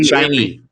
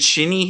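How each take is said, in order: First: The first vowel is long, as in shine. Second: The first vowel is short, as in shin. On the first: The speaker calls it right. "Shiny and bright, not Shinny" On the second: The speaker calls it wrong. "Is am I saying that right?"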